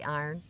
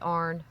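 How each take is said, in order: First: It sounds like the full word 'iron'. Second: It sounds like the single syllable 'arn'. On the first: The speaker says it this way. "I say iron" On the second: Other people say it this way. "I don't say arn. I know people who say that"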